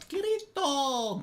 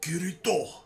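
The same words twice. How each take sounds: First: The R is rolled in a trilled way. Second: It is said with a Japanese accent. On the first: "Do I have to roll the R? Because that's kind of fun" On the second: "You have to say it with like a cool Japanese accent"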